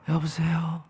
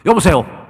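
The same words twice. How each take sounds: First: It is said weakly, with little energy. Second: It is said loudly, with lots of energy. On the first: The person is exhausted and weak today. "이거는 지금 거의 뭐 지쳐서 쓰러지시는" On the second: The person is healthy and full of vigor. "외치시면서 전화를 받"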